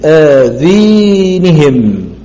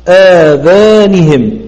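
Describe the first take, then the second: First: The long vowel leans toward 'ee' (imala). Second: The long vowel is a pure open 'aa'. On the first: This is the reading of a single transmitter. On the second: This is the reading of most reciters.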